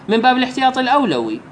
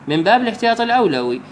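No difference in how they are said.

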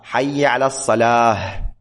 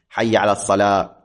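First: The final word ends in an h sound. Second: The final word ends in a t sound. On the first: The speaker calls it right. "لا" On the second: The speaker calls it wrong. "مثل ما البعض يلفظ هكذا"

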